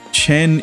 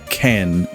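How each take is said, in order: First: The syllable starts with a soft ch sound. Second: The syllable starts with a hard K sound. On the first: The speaker calls it right. "But Chen is, is, is pen" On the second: The speaker calls it wrong. "not like a C H turned into a K"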